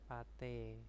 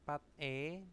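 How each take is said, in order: First: The final consonant moves into the next syllable. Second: The syllables are said separately, final consonant kept.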